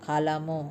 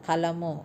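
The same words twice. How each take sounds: Both takes have the same delivery.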